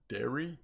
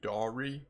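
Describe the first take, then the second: First: The first vowel sounds like the letter E. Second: The first vowel sounds like the letter A. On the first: "Or like an E?" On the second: "Do I pronounce it like an A?"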